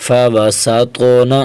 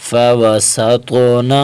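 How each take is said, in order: Both takes have the same delivery.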